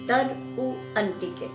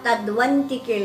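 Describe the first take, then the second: First: The words are said as separate words. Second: The words are run together as one word. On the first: "मैं जानबूझकर संधि विच्छेद करके बोल रही हूँ" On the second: "वहाँ तद्वंतिके लिखा है"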